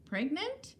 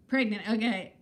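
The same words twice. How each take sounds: First: Rising, puzzled echo of a word; surprised question. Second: Falling, accepting nod in voice; resigned acceptance. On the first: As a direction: ask it back, surprised. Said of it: "I don't know". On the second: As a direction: concede it with a shrug. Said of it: "I look it". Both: Real, not acted.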